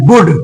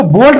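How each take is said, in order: First: वुड with short "oo" and silent l; वुड, no l before the d; correct reading of would. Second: बोल्ड with a long "o" and sounded l; बोल्ड, l heard before d; wrong reading of would. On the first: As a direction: say वुड to rhyme with "good". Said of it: "इसको पढ़ेंगे वुड". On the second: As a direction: say बोल्ड like "bold". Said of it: "बोल्ड नहीं पढ़ेंगे". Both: Shown as a demonstration.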